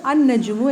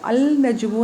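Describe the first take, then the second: First: അൻ നജുമു with no l, the n doubled as ann-najumu; correct sun letter form. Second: അൽ നജുമു with the l clearly pronounced before നജുമു; wrong form, l sounded. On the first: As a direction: say അൻ നജുമു dropping the lam into a doubled n. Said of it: "അൻ നജുമു എന്നാണ് പറയുന്നത്". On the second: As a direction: say അൽ നജുമു sounding the lam, the way it is not said. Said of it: "അൽ നജുമു എന്നല്ല പറയുന്നത്". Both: Shown as a demonstration.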